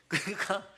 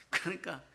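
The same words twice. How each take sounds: First: Said through a quiet laugh, rising; chuckling it out in disbelief; a laugh breaking into the word. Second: Said in the usual way. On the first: Real, not acted. Laughing at the letter.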